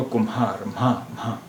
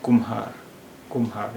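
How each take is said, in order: First: कुम्हार as ku-mhaar, म्हा one sound; blended mha. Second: कुम्हार split as kum-haar; separate m and h. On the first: Teacher showing the first way, कुम्हार with blended mha. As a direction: run m into h in कुम्हार. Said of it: "मिली-जुली आवाज़". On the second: Teacher showing the second way, कुम्हार with m and h apart. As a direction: close on म in कुम्हार before हार. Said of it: "माँ और हा की अलग-अलग आवाज़ें". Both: Shown as a demonstration.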